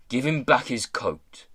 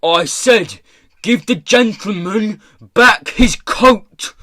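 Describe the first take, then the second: First: Said in the usual way. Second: High, slow, very loud order; furious shout. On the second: A narrator's reading. Pirate boss shouting at the corpse, furious. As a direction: shout it out, spacing the words. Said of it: "He shouted at the startled-looking corpse".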